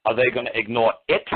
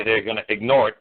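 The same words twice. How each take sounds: First: "it" set apart and punched as a question; pause, then a pointed, rising "it"; single out the word "it"; stress on IT. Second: Said in the usual way. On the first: Shown as a demonstration. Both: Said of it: "the way I emphasize the word it".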